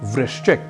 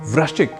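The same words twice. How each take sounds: First: The first syllable has a 'ri' sound. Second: The first syllable has an 'r' or 'ru' sound. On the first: The speaker calls it right. "जैसे एक शब्द है वृश्चिक" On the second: The speaker calls it wrong. "हम अक्सर कई लोगों से वृश्चिक इस रूप में सुन लेते हैं"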